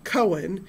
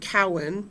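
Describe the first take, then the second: First: The name's first syllable sounds like 'co'. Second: The name's first syllable sounds like 'cow'. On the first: This is how other people assume it is said. "they pronounce it Cohen" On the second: This is how the owner says the name. "my last name"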